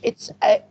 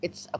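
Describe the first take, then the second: First: The word 'a' has a full, letter-name vowel. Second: The word 'a' is reduced to a weak schwa. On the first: The speaker calls it wrong. "مش" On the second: The speaker calls it right. "بصوا it's a quarter"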